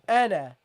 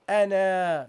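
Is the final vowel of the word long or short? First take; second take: short; long. First: The final vowel is short. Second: The final vowel is drawn out long. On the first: The speaker calls it right. "you pronounce this as ana" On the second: The speaker calls it wrong. "not ana. Don't prolong it"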